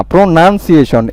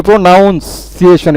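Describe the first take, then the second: First: প্রোনাউন্সিয়েশন with "nun" in the middle, no "ow"; correct pronunciation. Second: প্রোনাউন্সিয়েশন with a full "noun" in the middle; wrong pronunciation. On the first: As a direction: say প্রোনাউন্সিয়েশন as "pro-nun-si-ay-shun". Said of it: "এন ইউ এন". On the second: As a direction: say প্রোনাউন্সিয়েশন as "pro-noun-si-ay-shun". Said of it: "প্রোনাউন্সিয়েশন এটা না". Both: Shown as a demonstration.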